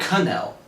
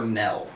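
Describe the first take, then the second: First: The word begins with an audible K. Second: The word begins with a silent K.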